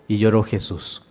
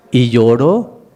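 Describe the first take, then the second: First: Y lloró Jesús dropped much softer, falling at the end; a soft falling echo of y lloró Jesús; hushed echo. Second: Y lloró said a bit louder, voice rising on lloró; Y lloró, rising and held; emphatic y lloró. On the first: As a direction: let y lloró Jesús sink into a hush. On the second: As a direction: lift lloró like a question that lingers. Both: Acted. Preacher dwells on Jesus weeping.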